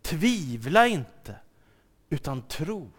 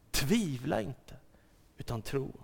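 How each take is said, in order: First: Very slow, weighty Tvivla inte; slow emphatic quote. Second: Softer, gentle Tvivla inte, utan tro; soft repeat. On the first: Acted. Jesus tells Thomas, slow and weighty. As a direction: press on Tvivla and tro. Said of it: "Därför säger Jesus ... till Thomas". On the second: Shown as a demonstration. Preacher repeats it softly to the congregation. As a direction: say it again quietly to the listener.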